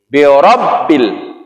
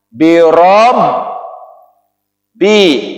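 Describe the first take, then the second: First: The doubled b is joined in one smooth word. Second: The doubled b is split across a break. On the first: This is the written form with one letter and a tasydid. "harokat tasjid menjadi birabbil" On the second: This is the underlying form with two letters. "asalnya birob bi"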